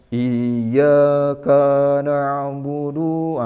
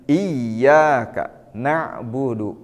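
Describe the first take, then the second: First: The vowels are stretched out too long. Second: The vowels are kept at normal length. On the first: The speaker calls it wrong. "terkadang terlalu panjang" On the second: The speaker calls it right. "kita praktekkan"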